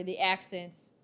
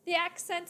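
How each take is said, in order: First: Said in the usual way. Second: High, lilting British accent. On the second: Shown as a demonstration. Showing viewers accents are fun, high British accent. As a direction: slip into a playful British voice. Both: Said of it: "Now you can go British".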